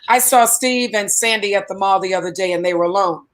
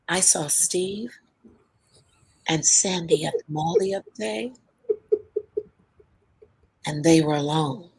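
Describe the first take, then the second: First: It is said in a plain, casual tone. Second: It is said in a knowing, suggestive tone. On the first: Nothing unusual happened. "case number one, big deal" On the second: Something improper may be going on. "Same words, but changed the tone"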